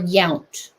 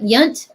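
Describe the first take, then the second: First: The vowel is an 'ow' sound. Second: The vowel is a short 'uh' sound. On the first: "an O W sound" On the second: "with like a U sound"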